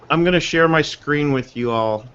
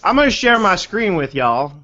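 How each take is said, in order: First: It is spoken in a neutral accent. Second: It is spoken in a Southern American accent.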